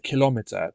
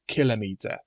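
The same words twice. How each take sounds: First: The stress is on the second syllable. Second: The stress is on the first syllable. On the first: The speaker calls it wrong. "the emphasis is on the second syllable" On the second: The speaker calls it right. "should have the emphasis on the first syllable. Hence, I say kilometer"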